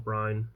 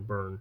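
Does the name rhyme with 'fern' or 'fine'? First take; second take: fine; fern. First: The vowel sounds like the one in 'fine'. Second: The vowel sounds like the one in 'fern'. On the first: The speaker calls it wrong. "not Brine" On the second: The speaker calls it right. "I think is how you pronounce that"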